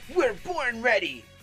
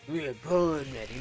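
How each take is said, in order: First: It is said with bold, heroic energy. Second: It is said in a flat, low-energy way. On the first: The speaker calls it right. "Protagonist energy" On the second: The speaker calls it wrong. "That doesn't sound like what I think Jake should sound like"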